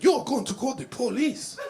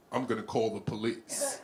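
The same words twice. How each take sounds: First: Put-on high, loud, incredulous Haitian accent; Haitian lady. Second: Said in the usual way. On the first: Haitian lady challenges the threat of police, high accented question. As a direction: throw it back high in a mock Haitian accent. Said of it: "She said". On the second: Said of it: "I said".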